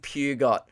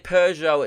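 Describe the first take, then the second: First: The name is pronounced as the odd caption spells it. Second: The brand name is pronounced in its usual way. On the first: This is how the old caption spelled it. The speaker calls it wrong. "It says fucking Peugeot" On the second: This is what the name should be. The speaker calls it right. "it doesn't say Peugeot"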